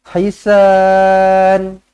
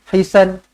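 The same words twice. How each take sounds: First: The final vowel is held long. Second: The final vowel is kept short. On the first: The speaker calls it right. "maka bacalah panjang" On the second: The speaker calls it wrong. "jangan hisan. Hisan tak boleh. Kena panjang"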